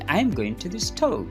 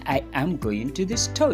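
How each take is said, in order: First: I and am merge into one syllable. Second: I and am are said as two full words. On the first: "you say" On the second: "Instead of saying"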